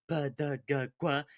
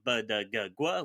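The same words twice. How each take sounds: First: The consonants are breathy voiced. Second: The consonants are plain voiced.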